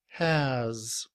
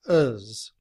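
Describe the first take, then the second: First: The h is pronounced with a full vowel. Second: The h is dropped with a weak vowel. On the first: "The word has in I P A format looks like this, with the letter H" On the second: "In reduced form, has becomes uz, with the schwa and the letter Z. We do not pronounce the letter H"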